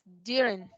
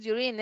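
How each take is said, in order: First: "during" as DYU-rin, falling away; first-syllable stress. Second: "during" as dyu-RIN, stressed on the end; wrong stress. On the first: Teacher correcting the accent, "during" stressed DYU-rin. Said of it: "es during". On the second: Teacher showing the mistaken accent, "during" stressed dyu-RIN. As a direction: push the last syllable of "during". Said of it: "no es during". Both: Shown as a demonstration.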